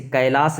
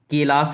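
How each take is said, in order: First: Said in the usual way. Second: कैलाश said as "kelas", with a plain e for ai; Pali vowel shift. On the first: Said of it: "जैसे कैलाश लिखते थे". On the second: Shown as a demonstration. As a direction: open कैलाश with a long "ke". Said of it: "तो उसको ये लोग ... लिखने लगे".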